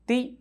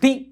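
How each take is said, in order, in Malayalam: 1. ആ വാക്ക് ശാന്തമായും സാധാരണമായും ആണ് പറയുന്നത്. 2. ആ വാക്ക് പെട്ടെന്നും അടിയന്തരമായും ആണ് പറയുന്നത്. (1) "തീ വെറുതെ ഇങ്ങനെ പറയുകയാണ്" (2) "പെട്ടെന്ന് തീ എന്ന് പറഞ്ഞാലോ ഞെട്ടും"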